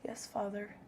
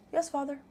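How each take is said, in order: First: Hushed quiet yes; soft and quiet. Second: Said in the usual way. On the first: Shown as a demonstration. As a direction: say it softly, almost under the breath. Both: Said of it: "in a more breathy voice".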